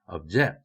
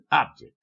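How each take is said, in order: First: The stress is on the second syllable. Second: The stress is on the first syllable. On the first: It is used as a verb. "동사 단어에는 첫 음절에 강세가 오지 않습니다" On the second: It is used as a noun. "명사 단어에는 첫 음절에 강세가 오고"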